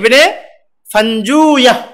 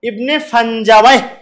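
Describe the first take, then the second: First: The name ends with a short 'juya' sound. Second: The name ends with a longer 'jawayh' sound. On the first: "আসল হলো কি হবে?" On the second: "এটা আরেকটা উচ্চারণ আছে"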